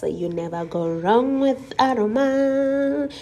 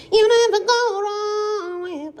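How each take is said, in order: First: Said in the usual way. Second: Much higher, squeaky-voiced annoying sing-song; high, annoying put-on voice; irritating voice. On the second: Shown as a demonstration. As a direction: say it to annoy your sister. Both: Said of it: "this is my irritating voice".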